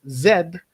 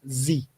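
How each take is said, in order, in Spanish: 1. La letra Z se pronuncia con acento británico. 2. La letra Z se pronuncia con acento americano. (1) "si queremos hacer una pronunciación más británica" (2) "Si hacemos una pronunciación más americana"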